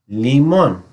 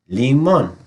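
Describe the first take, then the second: Both takes have the same delivery.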